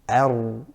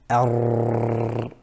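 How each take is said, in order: First: The tongue tip touches lightly without repeated vibration. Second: The tongue tip vibrates repeatedly in a trill. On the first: The speaker calls it right. "the correct pronunciation of Ra is ar" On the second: The speaker calls it wrong. "we don't have excessive repetition. So we don't say ar"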